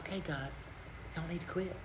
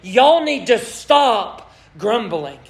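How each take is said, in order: First: It is said in a light, casual tone. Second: It is said in a serious, bold tone.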